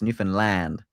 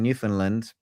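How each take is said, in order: First: It is said the way locals say it. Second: It is said the way British speakers say it. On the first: The speaker calls it right. "We need to we need to pronounce it right" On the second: The speaker calls it wrong. "I think that's kind of how the Brits say it"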